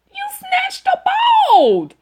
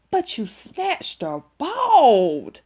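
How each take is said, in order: First: Disbelieving shout. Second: Laughing disbelief. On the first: Teller shouting at Tamika about the fight, high and amazed. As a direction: stretch out bald in amazed outcry. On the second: Teller telling Tamika she snatched her bald, laughing. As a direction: chuckle it out slowly. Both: Real, not acted.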